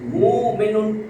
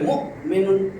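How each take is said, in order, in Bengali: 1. প্রথম স্বরধ্বনিটি দীর্ঘ টানা হয়। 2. প্রথম স্বরধ্বনির পরে একটি তীক্ষ্ণ গলার ঝটকা আসে। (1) "পেশের পরে যজমলা এক আলিফ টান" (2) "তখন ঝটকা আসবে"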